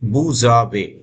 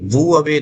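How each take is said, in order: First: A z sound links the two words. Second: The words are said without a z link. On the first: The speaker calls it right. "Linking हो जाती है तो इसको स, एस को ज बोलते हैं" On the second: The speaker calls it wrong. "vous avez नहीं"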